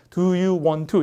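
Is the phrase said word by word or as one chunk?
word by word. The words are said separately, without natural rhythm. The speaker calls it wrong. "이렇게 하는 게 아니라"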